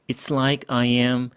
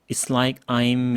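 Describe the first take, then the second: First: Every word is spoken separately with full 'I am'. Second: The words are separate but 'I am' is contracted. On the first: "외국인들은 It's like I am, It's like I'm 이 정도가 한계거든요" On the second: "It's like I'm 이 정도가 한계거든요"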